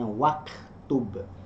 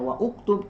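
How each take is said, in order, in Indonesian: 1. Vokal 'u' dihilangkan, 'wa' langsung tersambung. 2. Vokal 'u' diucapkan terpisah setelah 'wa'. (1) "tapi dibacanya waktub" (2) "tidak dibaca wa uktub"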